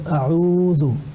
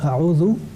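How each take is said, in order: First: The vowel after the ayn is held long. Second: The vowel after the ayn is short. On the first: The speaker calls it right. "il faut nécessairement prolonger ... il faut dire a'oudhu" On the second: The speaker calls it wrong. "au lieu de dire a'oudhu, comme l'avait fait précédemment"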